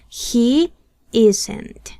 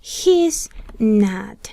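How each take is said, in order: First: Is and not merge into one word. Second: He and is merge into one syllable. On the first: "pueden contraer el verbo to be con el not" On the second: "podemos contraer el pronombre personal con el verbo to be"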